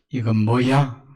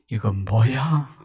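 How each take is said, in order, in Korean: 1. 불만스럽고 부정적인 어조로 말한다. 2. 놀라고 깊이 감동한 어조로 말한다. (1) "알면서도 부정적인 의도일 수 있겠고" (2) "감동되어서 하는 말입니다"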